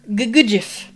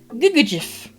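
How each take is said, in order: First: The second syllable carries a little extra stress. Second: The second syllable carries no special stress. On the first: The speaker calls it right. "put like a little emphasis um, on the second syllable" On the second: The speaker calls it wrong. "sorry I didn't pronounce that right"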